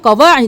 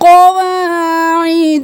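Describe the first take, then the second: First: The vowel after w is clipped short. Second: The vowel after w is held long. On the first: The speaker calls it wrong. "क़वाइद नहीं करना" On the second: The speaker calls it right. "एक अलिफ के बराबर खींचे"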